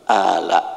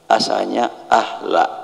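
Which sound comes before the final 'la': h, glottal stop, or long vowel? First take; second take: long vowel; h. First: A long vowel leads into the final syllable. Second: An h sound comes before the final syllable. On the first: The hamzah has been changed into an alif. "hamzah dirubah menjadi alif" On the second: This is the original form of the word.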